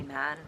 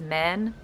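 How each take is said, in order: First: "man" with a normal, open back vowel. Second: "man" with a raised vowel, like "men"; high vowel in man. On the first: Shown as a demonstration. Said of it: "say it with a normal back vowel". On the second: Retold or imitated. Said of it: "with a weird, weird high vowel".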